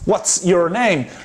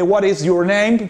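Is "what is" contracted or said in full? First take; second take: contracted; full. First: What's is one syllable, with t linked into s. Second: What and is are said as two full words. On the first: The speaker calls it right. "el linking de la T con la S" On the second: The speaker calls it wrong. "Nadie habla así prácticamente"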